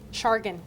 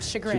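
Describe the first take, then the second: First: The word ends with a 'gan' sound. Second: The word ends with a 'grin' sound. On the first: The speaker calls it wrong. "I thought it was um, um, Shargan" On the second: The speaker calls it right. "instead of chagrin"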